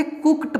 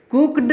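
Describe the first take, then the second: First: "कुक्ड" said as kukt; ending read as T. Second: "कुक्ड" said as kukd; ending read as D. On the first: Teacher models the rule, "कुक्ड" ending in T. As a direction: say "कुक्ड" with final D as T. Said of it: "देखिए यहाँ ड नहीं होगा". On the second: Teacher shows the rejected reading, "कुक्ड" ending in D. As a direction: say "कुक्ड" with voiced final D. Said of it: "कुक्ड नहीं पढ़ेंगे". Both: Shown as a demonstration.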